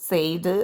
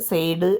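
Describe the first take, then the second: The two takes are said the same way.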